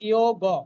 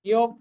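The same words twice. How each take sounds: First: The word ends in a full ga syllable. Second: The word ends in a bare g consonant. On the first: The speaker calls it right. "গটা পূর্ণ" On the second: The speaker calls it wrong. "ইয়োগ কিন্তু নয়"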